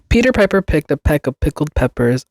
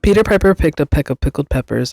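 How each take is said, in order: First: It is said at a normal, reading speed. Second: It is said as fast as possible.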